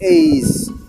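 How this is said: The letter has an ei glide vowel. The speaker calls it right. "lebih menyerupai eis"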